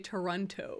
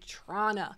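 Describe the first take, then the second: First: Every T sound in the name is clearly pronounced. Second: The T sounds are reduced, giving a short form. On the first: It is said jokingly, like an outsider. The speaker calls it wrong. "we think it's funny to say Toronto. ... I like to pronounce all of the T's" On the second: It is said the way locals say it. The speaker calls it right. "instead of saying Trana"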